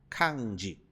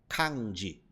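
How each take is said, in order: No difference in how they are said.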